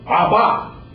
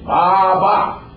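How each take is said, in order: First: The first vowel sounds like 'ah'. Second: The same.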